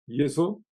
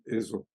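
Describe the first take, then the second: First: The word begins with a y sound. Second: The word begins with a plain vowel. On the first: This is the older reading of the name. "dans une prononciation qui n'a plus cours aujourd'hui" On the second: This is the reading used today. "On prononce aujourd'hui Ezo"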